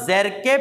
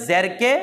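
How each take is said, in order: The two takes are said the same way.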